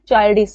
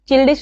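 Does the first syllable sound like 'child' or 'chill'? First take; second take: child; chill. First: The first vowel is a long 'eye' sound. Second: The first vowel is a short 'i' sound. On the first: The speaker calls it right. "चाइल्डिश है" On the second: The speaker calls it wrong. "चिल्डिश नहीं है"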